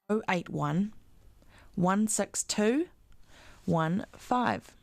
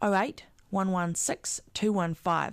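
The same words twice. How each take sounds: First: The number is read more slowly. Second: The number is read at normal speed.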